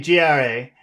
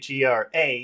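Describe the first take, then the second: First: The letters are blended together like one word. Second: Each letter is said separately and clearly. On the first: The listener can't tell it's being spelled. The speaker calls it wrong. "it sounds like you're saying a word and I don't understand the word" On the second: The listener understands the spelling at once. The speaker calls it right. "I understand immediately"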